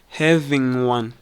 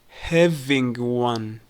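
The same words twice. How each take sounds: First: The final G weakens and links to one. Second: The final G of having is fully pronounced.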